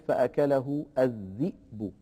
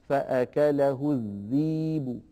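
First: The last word has a glottal stop after its vowel. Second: The last word has a long i vowel, no glottal stop. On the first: This is not the reading of Warsh. "ولا يقول فأكله الذئب" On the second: This is the reading of Warsh. "يبدلها فيقول مثلا فأكله الذيب"

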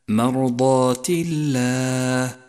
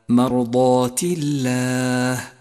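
First: The l in Allah is light. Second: The l in Allah is light.

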